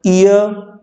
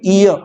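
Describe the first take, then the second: First: "ईयर" said with the r sounded; the wrong take, r rolled in; wrong pronunciation, a touch higher. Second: The right take, no r at the end; correct pronunciation, r dropped. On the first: ("ईयर" में आर बोला गया, गलत उच्चारण) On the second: ("ईयर" में आर silent, सही उच्चारण) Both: Shown as a demonstration. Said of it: "ईयर नहीं".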